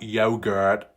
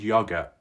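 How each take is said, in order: First: The word has an American pronunciation. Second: The word has a non-American pronunciation. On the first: "for those that wanted me to say it" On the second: "some Americans will be absolutely triggered by my pronunciation"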